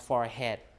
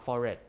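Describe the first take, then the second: First: The H sound is pronounced. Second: The H sound is left out. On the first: "people see the way that it's written" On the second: "without the H"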